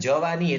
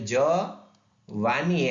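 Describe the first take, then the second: First: The word is said smoothly without a break. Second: A short pause splits the word after the first syllable. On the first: It means youth. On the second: It means something is going to go away.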